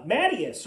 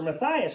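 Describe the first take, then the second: First: Matthias said MATT-ee-us, stress up front; first pronunciation. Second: Matthias said muh-THY-us, stress in the middle; alternative pronunciation. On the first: Preacher offering one option for a name, Matthias as MATT-ee-us. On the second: Preacher offering the other option for a name, Matthias as muh-THY-us. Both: Shown as a demonstration. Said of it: "however you want to say it".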